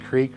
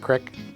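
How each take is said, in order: First: The word is said with a long ee vowel. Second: The word is said with a short i vowel. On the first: This is the standard form of the word. "it's actually creek" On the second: This is the local form used in the area. "we call it the crick"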